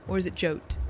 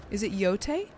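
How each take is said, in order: First: Jote with a hard English J, one syllable; pronounced J. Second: Yote said "YO-tay", starting on a Y sound; silent J. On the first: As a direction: say Jote to rhyme with "boat". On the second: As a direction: ask Yote in two syllables, "yo-tay", voice rising. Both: Shown as a demonstration. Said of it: "Is the J silent?".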